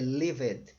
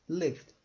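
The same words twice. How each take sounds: First: The ending is said as an extra syllable. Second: The ending is only a d sound. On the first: The speaker calls it wrong. "Senão eu falaria" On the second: The speaker calls it right. "Sem o E"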